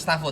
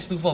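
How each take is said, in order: First: The first vowel sounds like 'ah'. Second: The first vowel sounds like 'oo'. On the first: The name is read the English way. The speaker calls it wrong. "bukan Stafo" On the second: The name is read the Indonesian way. The speaker calls it right. "dibacanya Stufo"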